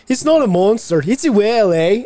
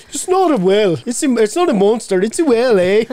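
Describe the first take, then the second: First: High, loud mock Irish accent. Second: Deep mock Irish accent, imitating daughter; lower Irish accent. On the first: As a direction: put on a thick Irish lilt. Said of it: "my daughter, just like that". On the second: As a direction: drop the voice low in a mock Irish lilt. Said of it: "she drops four tones, goes down".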